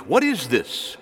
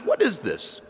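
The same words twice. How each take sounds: First: Said in the usual way. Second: Raised, bewildered question; puzzled. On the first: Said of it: "It means". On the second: Shown as a demonstration. Preacher acts out the Israelites puzzling over manna, puzzled. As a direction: ask it scratching your head in confusion. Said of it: "You have to scratch your head when you say it".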